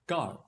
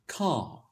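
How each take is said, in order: First: "car" with an audible R at the end; Indian English car. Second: "car" as a drawn-out "cah"; British RP car. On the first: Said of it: "in Indian English". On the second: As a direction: say "car" with the R silent and a long open vowel. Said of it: "in the accent that becomes car". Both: Shown as a demonstration.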